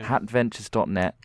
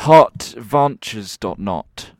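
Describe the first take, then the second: First: The vowels are pronounced in a normal way. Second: The vowels are pronounced in an odd way. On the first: The speaker calls it right. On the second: The speaker calls it wrong.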